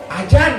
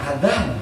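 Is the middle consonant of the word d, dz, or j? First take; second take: j; dz. First: The middle consonant is a j sound. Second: The middle consonant is a voiced dz sound. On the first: This is how Jakarta speakers say it. "ari Jakarta mah biasana bahasana sok rada nyon" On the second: This follows the rules of Quranic recitation. "anu bener menurut ilmu tajwid"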